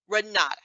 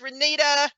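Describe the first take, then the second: First: The middle vowel sounds like 'ah'. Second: The middle vowel sounds like 'ee'. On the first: The speaker calls it right. "I know it's Renata" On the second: The speaker calls it wrong. "I keep saying Renita"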